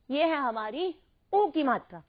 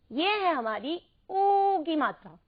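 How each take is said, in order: First: ऊ said short, as उ. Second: ऊ held long before की. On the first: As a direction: keep ऊ brief before की. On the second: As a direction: stretch ऊ out to mark the long vowel. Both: Shown as a demonstration. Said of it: "अंतर बिल्कुल ध्यान से बोलकर".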